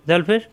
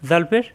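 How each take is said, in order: The two takes are said the same way.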